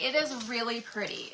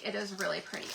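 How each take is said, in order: First: Said in the usual way. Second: "It is really pretty" repeated softer and lower; a quieter afterthought; soft echo. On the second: Real, not acted. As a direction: murmur it again to yourself.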